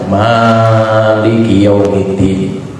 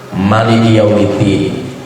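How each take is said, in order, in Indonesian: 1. Suku kata pertama dari "Maliki" dipanjangkan. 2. Semua suku kata dari "Maliki" dipendekkan. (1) "Bisa dibaca mimnya panjang" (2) "bisa dipendekkan semua"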